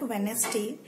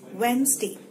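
First: The middle 'd' is sounded and the word has three syllables. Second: The middle 'd' is silent and the word has two syllables. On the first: The speaker calls it wrong. "So it's not Wednesday" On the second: The speaker calls it right. "it's Wednesday"

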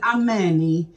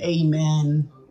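First: The word ends with an added final vowel. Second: The word ends on the final consonant. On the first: This is how the other group says it. "they pronounce it Ameni" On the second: This is how the speaker's own group says it. "We pronounce it Amen"

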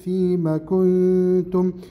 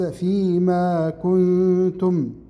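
First: The vowel after the m is short. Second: The vowel after the m is lengthened. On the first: The speaker calls it right. "هذه الميم مفتوحة فقط وليس بعدها ألف مد" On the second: The speaker calls it wrong. "وليس فيما كنتم"

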